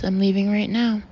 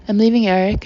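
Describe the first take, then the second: First: Said in the usual way. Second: Louder, a sudden burst of release; blurted confession, louder on leaving. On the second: A narrator's reading. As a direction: let it burst out of you. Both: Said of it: "I blurted out like a release".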